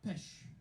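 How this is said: It is said in a French accent.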